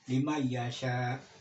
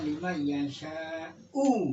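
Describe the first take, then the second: First: The last word ends without a final vowel. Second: The last word ends with a final u vowel. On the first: The word man is treated as a conditional particle. The speaker calls it wrong. "itu salah, salah kaprah itu" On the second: The word man is treated as a relative pronoun. The speaker calls it right. "Harus dibaca lima yasha'u"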